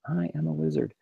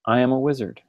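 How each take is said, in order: First: "I am a wizard" murmured much softer, barely voiced; under your breath. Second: Said in the usual way. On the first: Shown as a demonstration. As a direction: say it quietly to yourself, almost under the breath. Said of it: "even if you say it under your breath". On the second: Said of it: "So I want you to say".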